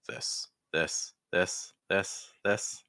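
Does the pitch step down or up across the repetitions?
up. The pitch steps higher on each repetition. "I can also go back up"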